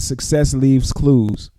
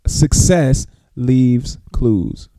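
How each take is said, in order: First: Said in the usual way. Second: "Success leaves clues" very slowly, word by word; slow dictation. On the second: Real, not acted. Host repeats a motto for listeners writing it down, slow dictation of "Success leaves clues". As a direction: spell out "Success... leaves... clues" with pauses between words.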